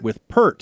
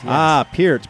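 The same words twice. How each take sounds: First: Peart said as "pert"; Peart rhyming with hurt. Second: Peart said as "peer-t"; Peart rhyming with ear. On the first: Shown as a demonstration. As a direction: Peart with an r-colored "er" sound. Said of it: "I'm still siding with Rolling Stone". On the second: Retold or imitated. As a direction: say Peart like "pierce" without the s. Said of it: "[name] in the background also say".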